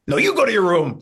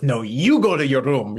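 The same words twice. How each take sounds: First: Much higher and louder mock shout; Carol Kane's final comeback. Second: Lightly voiced grandma accent firing back; imitating Nana's accent. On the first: Nana topping her daughter for the last word, high and loud. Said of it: "like that". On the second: Lightly voiced Nana accent, telling her daughter to go to her room. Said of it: "in her accent that she's doing".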